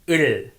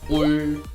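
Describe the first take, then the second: First: The vowel is unrounded with spread lips. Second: The vowel is rounded, like oo. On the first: The speaker calls it right. "Don't make a circle with your lips. Your mouth shape looks like flag" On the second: The speaker calls it wrong. "Many people pronounce object particle in wrong ways, like 울"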